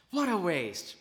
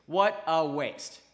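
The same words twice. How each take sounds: First: Said in the usual way. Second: Drawn out and a bit louder; a sermon's solemn judgment on the loss; slow, weighty verdict. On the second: Real, not acted. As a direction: let each word land heavily.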